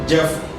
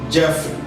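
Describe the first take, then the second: Both takes have the same delivery.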